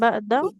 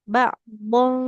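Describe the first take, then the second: First: The word ends on a plain vowel. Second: The word ends with a nasal n sound. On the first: The speaker calls it wrong. "bukan ba'da" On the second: The speaker calls it right. "ba'dong huruf dot ya"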